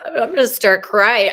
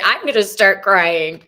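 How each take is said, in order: First: Louder, higher, voice welling up with real tears; choked up and loud, near tears; about to cry. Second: Loud, emotion holding at the same pitch; loud and teary, pitch settling; still near tears. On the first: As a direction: let the emotion break through, pitched up. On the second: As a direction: repeat it, steadier but still welling. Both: Real, not acted.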